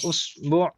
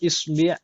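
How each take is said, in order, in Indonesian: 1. Vokal sebelum bunyi terakhir adalah u. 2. Vokal sebelum bunyi terakhir adalah i. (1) "bisa dibaca dengan berbagai harokat" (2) "bisa dibaca dengan berbagai harokat"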